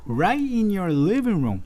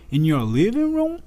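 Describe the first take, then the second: First: "Right" hit high and drawn out, emphatic; slow, raised delivery leaning on "Right"; emphasis on RIGHT. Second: Said in the usual way. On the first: Shown as a demonstration. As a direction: stress "Right" to pinpoint the place. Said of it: "Mas ele falou". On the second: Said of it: "Ele poderia simplesmente falar".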